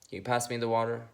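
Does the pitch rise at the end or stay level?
level. The pitch stays level at the end. The speaker is simply making a neutral request. "Neutral is just"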